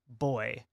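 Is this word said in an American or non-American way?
non-American. The word is said in a non-American pronunciation. "instead of boy"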